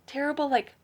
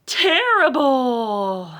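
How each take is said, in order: First: Said in the usual way. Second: Slow, louder, drawn-out terrible; reading Terrible with a big spooky pause; dramatic title word. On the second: Shown as a demonstration. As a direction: stretch out Terrible and lean on it. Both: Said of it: "Terrible, like, mean, ferocious?".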